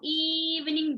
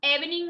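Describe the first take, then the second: First: इवनिंग with the first "ee" stretched out; long E in इवनिंग. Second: इवनिंग begun with a quick "eh"; short E in इवनिंग. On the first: Teacher explains E in front, long "ee" in इवनिंग. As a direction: hold the opening of इवनिंग: "eee-vning". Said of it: "long sound बोलते हैं". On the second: Teacher contrasts the way we don't say it, short "eh" in इवनिंग. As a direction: pronounce इवनिंग like "EV-ning". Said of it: "इवनिंग नहीं बोलते हैं". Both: Shown as a demonstration.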